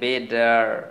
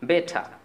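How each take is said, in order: First: The t sounds like a soft d. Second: The t is a clear t sound. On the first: "American অ্যাকসেন্টে বেডার" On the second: "British অ্যাকসেন্টে বলবেন বে ঠা"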